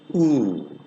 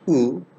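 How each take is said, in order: First: The vowel is held for a longer time. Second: The vowel is held only briefly. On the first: "long vowel" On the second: "short vowel"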